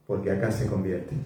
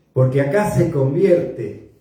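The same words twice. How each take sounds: First: Hushed. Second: Emphatic. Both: Shown as a demonstration.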